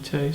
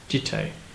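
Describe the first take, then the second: First: The word begins with a Y sound. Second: The word begins with a J sound. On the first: The speaker calls it wrong. "I know it's not pronounced Yite" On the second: The speaker calls it right. "I believe is the correct pronunciation"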